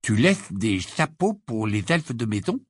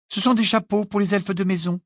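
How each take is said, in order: First: Slowly. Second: Curt, high reply stressing sont; brusque. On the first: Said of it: "dit lentement Ron". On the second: Hermione curtly answers Ron, brusque. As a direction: snap back the answer briskly. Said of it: "d'un ton brusque". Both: Acted.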